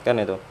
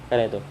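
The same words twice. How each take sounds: Both takes have the same delivery.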